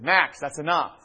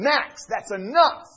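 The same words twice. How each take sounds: First: It is said somewhat louder. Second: It is yelled loudly. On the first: A firmer request that is still ignored. "I'll raise my voice a little bit" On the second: A command that finally gets obeyed. "The moment I yell at him"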